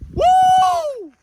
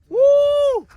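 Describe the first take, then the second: First: It is shouted much louder. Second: It is shouted fairly quietly.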